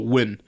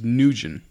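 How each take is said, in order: First: The name is said as one English syllable. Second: The name is said as two syllables, 'Nugent'. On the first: "when just in English, we just go win" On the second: "the way I pronounce my last name is Nugent"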